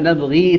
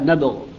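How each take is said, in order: First: The word ends with a final long 'ee' vowel. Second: The word ends on a silent consonant. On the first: The reciter continues without stopping. "نبغي إذا وصلها يضيف لها ياء" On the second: The reciter stops on the word. "أما إذا وقف عليها فيقرأها نبغ بالغين، بإسكان الغين"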